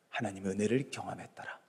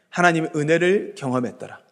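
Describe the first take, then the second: First: Very soft and low; hushed answer. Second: Said in the usual way. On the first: Real, not acted. Preacher answering what gave Noah strength to endure, hushed. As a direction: drop right down for a solemn answer.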